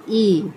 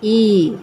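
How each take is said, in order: First: ई said short and quick, not drawn out. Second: ई drawn out long and a little louder. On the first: Teacher showing the class a short ई, said quickly. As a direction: give ई a brief, quick sound. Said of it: "ज़्यादा खींच कर नहीं करते". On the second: Teacher showing the class a long drawn-out ई. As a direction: stretch ई out long. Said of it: "इसको हम खींच कर करते हैं". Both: Shown as a demonstration.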